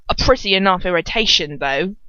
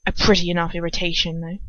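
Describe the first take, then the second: First: Slurred. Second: Said in the usual way. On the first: Shown as a demonstration. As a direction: slur it like drunk Dolohov. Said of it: "Dolohov slurs".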